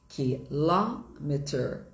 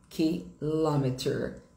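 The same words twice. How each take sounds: Both takes have the same delivery.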